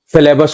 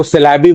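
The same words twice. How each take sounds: First: Said in the usual way. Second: सिलेबी, syllabus with its ending swapped for "bee"; mispronounced syllabus. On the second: Shown as a demonstration. Teacher showing students how some people say it, mispronounced सिलेबी. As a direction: say सिलेबी, ending in a long "ee" instead of "us". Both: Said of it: "सिलेबस को सिलेबी बोल देते हैं".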